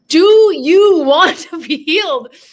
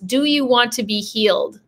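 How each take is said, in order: First: It is said loudly, almost shouting. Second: It is said at normal volume.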